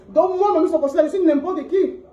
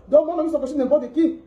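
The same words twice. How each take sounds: First: Drawn out, each word slow; much slower wounded repeat. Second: Said in the usual way. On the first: Real, not acted. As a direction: drag it out, hurt and bitter.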